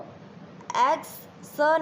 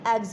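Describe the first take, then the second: First: The word ends with a hissing s sound. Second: The word ends with a buzzing z sound. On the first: The speaker calls it wrong. "इसको एग्स स नहीं बोलेंगे" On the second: The speaker calls it right. "एग्स बोलेंगे"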